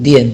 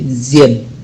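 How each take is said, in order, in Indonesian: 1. Kata itu diawali dengan bunyi d biasa. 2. Kata itu diawali dengan bunyi seperti z. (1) "Tapi tidak diucapkan dien" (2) "tapi zien"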